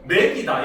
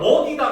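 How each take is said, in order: First: The first vowel is pronounced 'ae'. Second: The first vowel is pronounced 'eo'. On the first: This is the dialect form. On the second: This is the standard form.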